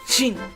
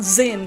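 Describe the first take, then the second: First: The name begins with a 'j' sound. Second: The name begins with a 'z' sound. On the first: The speaker calls it right. "I'm saying gin" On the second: The speaker calls it wrong. "It's not zin"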